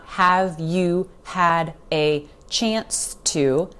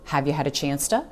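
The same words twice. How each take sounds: First: Each word is said separately and clearly. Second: The words run together with reductions. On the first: The speaker calls it wrong. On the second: The speaker calls it right. "they just flow together"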